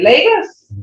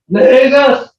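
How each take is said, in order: First: It is said in a gentle, welcoming tone. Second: It is said in a stern, scolding tone.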